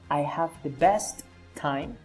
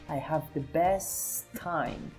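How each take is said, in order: First: The two t sounds are pronounced separately. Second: The two t sounds are joined into one. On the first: The speaker calls it wrong. "It is not" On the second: The speaker calls it right.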